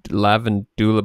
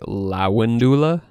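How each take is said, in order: First: The second consonant is a V sound. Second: The second consonant is a W sound. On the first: "I'm using the V instead of the W" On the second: "but you would actually want to say lawandula"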